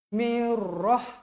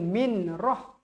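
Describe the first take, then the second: First: The n merges into a doubled r sound. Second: An n sound is heard before roh. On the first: The speaker calls it right. "nun dia tak bunyi sebab terus masuk dekat sabdu huruf ra" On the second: The speaker calls it wrong. "Jangan baca min roh"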